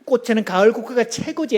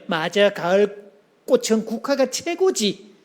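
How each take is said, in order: First: Said in the usual way. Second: Agreeing warmly. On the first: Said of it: "보통 싸우는 사람들이". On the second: Shown as a demonstration. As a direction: chime in to agree. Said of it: "그렇게 말해놓고".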